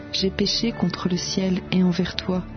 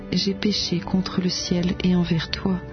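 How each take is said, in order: The two takes are said the same way.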